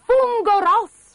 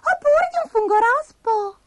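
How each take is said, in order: First: High, loud exclamation; acted shout of discovery; excited cry. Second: Squeaky falsetto ending a list; tiny creature musing aloud; Abigail the little spider. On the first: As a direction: punch out both words, pitched up. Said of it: "gridò Bastoncello". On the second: Spider ends her list. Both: A narrator's reading.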